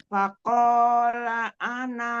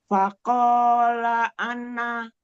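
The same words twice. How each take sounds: Both takes have the same delivery.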